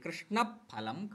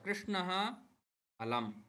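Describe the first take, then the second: First: Only a faint breath comes before the ph. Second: A full h sound ends the first word. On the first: The words are joined inside a sentence. "वाक्येषु वदामः चेत् यदि फकारात् पूर्वं विसर्गः" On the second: The two words are said separately. "पदद्वयम् उच्चारयामः तदा सामान्यतया"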